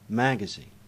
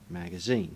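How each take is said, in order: First: The stress falls on the first syllable. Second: The stress falls on the last syllable. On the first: This is the American way of saying it. "An American would put the stresses in a completely different place" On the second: This is the British English way of saying it. "In English, that's where we put the stress in these particular words"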